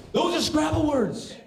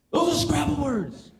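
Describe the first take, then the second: First: Higher and slow, punching "Those"; emphatic insistence. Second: Said in the usual way. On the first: Shown as a demonstration.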